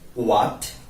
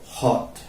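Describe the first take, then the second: First: The word starts with a w sound. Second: The word starts with an h sound. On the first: The speaker calls it right. "we should say what" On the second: The speaker calls it wrong. "We mispronounce it hot"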